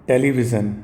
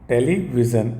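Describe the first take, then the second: Both takes have the same delivery.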